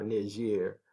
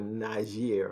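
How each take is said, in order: First: Niger said "nee-ZHEER", ee first, soft zh; French-style Niger with an opening ee. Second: Niger said "nye-ZHEER", soft zh, stressed ending; first French-style variant of Niger, "nye-ZHEER". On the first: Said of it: "because it's French". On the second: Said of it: "they call it Niger or Niger". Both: Shown as a demonstration.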